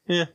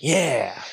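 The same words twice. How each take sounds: First: Short, small, indifferent yeah; unimpressed. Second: A full, drawn-out yeah; enthusiastic approval. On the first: Reacting to a band's lesser songs, lukewarm. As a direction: toss it off without interest. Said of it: "And the rest, you're like". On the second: Reacting to a band's few good songs, keen approval. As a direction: say it like you're really into it. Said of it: "you're like". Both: Acted.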